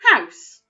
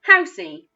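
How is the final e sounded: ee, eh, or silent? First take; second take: silent; ee. First: The word ends with no added vowel sound. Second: The word ends with an added 'ee' sound. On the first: The speaker calls it right. "I didn't make any sound for that last letter" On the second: The speaker calls it wrong. "it sometimes also makes the E sound"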